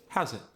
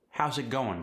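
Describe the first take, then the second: First: South African accent. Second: Said in the usual way. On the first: Shown as a demonstration. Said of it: "your South African accent".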